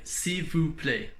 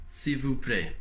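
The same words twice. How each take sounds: First: Slow demo. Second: Said in the usual way. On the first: Shown as a demonstration. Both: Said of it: "you would say".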